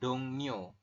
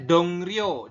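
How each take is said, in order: First: The middle consonant is pronounced as n. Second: The middle consonant is pronounced as r. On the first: The speaker calls it right. "dibacanya dongnyo" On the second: The speaker calls it wrong. "Tulisannya dongryo"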